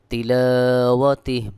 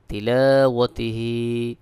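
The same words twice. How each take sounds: First: তিলাওয়াতিহ louder, cut off on a bare h; waqf, silent-vowel ha. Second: তিলাওয়াতিহি ending on a long, voiced "hee"; without waqf. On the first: Teacher showing how to pause, final h vowelless in তিলাওয়াতিহ. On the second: Teacher reading on without a stop, long final "hee" in তিলাওয়াতিহি. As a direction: carry the last vowel of তিলাওয়াতিহি out fully. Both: Shown as a demonstration. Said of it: "ওয়াকফা করলে এখানে হা সাকিন হয়ে যাবে".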